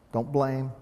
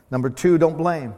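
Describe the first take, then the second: First: Said in the usual way. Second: Emphatic. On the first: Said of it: "pastor repeats point, then louder". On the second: Shown as a demonstration. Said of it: "pastor repeats point, louder".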